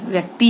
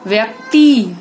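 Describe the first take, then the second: First: Said in the usual way. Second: व्यक्ति with a loud, long final "ee"; mispronounced vowel. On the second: Shown as a demonstration. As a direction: stretch व्यक्ति to "vyak-TEE". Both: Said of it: "व्यक्ति होता है".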